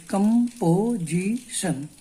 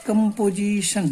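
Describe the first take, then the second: First: Very slow, each syllable its own push; broken into syllables. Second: Said in the usual way. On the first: Shown as a demonstration. Teacher splitting the word for students, slow syllable by syllable. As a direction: tap out composition one stroke at a time. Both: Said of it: "इसको तोड़िए".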